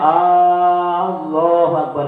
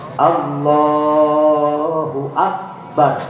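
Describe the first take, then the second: First: The opening vowel of Allahu is drawn out long. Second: The opening vowel of Allahu is kept short. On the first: The speaker calls it wrong. "Jangan dibaca Allahu Akbar, salah" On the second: The speaker calls it right. "hamzahnya nggak boleh dibaca banyak"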